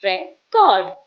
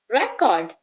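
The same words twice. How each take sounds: First: "record" stressed on CORD. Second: "record" stressed on RE. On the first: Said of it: "stress on the second syllable". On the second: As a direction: hit the RE of "record". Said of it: "with the stress on the first". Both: Shown as a demonstration.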